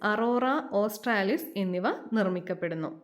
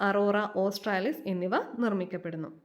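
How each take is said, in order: No difference in how they are said.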